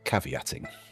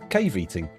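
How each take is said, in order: First: The word is said in its usual form. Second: The word is split into 'cave' and 'eating'. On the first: "That's what they call caveating" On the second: "as I'm sure Donald Trump would pronounce it"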